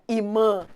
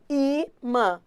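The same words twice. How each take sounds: First: The stress is on the second syllable. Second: The stress is on the first syllable. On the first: The speaker calls it wrong. "Não é imã" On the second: The speaker calls it right. "A mais forte é o I"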